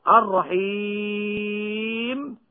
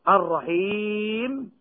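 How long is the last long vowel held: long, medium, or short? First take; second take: long; medium. First: The final long vowel is held for six counts. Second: The final long vowel is held for four counts. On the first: "هذه الثلاثة بالسكون المجرد" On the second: "هذه الثلاثة بالسكون المجرد"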